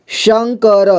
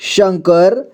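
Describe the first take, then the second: First: शंकर sounded out as shan-ka-ra; syllable-by-syllable reading. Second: Said in the usual way. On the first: Shown as a demonstration. Teacher showing learners how to join letters, शंकर as shan-ka-ra. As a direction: voice every letter of शंकर, final vowel too. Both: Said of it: "जोड़ जोड़ करके पढ़ना है".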